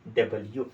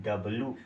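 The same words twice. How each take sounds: First: डब्ल्यू in full as "da-bal-yoo"; three-part "double-you" for डब्ल्यू; correct pronunciation. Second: डब्ल्यू squashed to "dab-loo"; lazy two-syllable "dabloo" for डब्ल्यू; common mispronunciation. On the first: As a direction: keep the y-sound in डब्ल्यू. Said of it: "क्या है". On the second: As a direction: drop the y from डब्ल्यू, ending in loo. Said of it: "ये डब्ल्यू नहीं मेरे भाई". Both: Shown as a demonstration.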